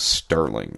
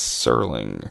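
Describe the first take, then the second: First: A t sound follows the s. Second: No t sound follows the s. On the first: The speaker calls it wrong. "I thought his name was Sterling, S T E R" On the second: The speaker calls it right. "oh, it's Serling"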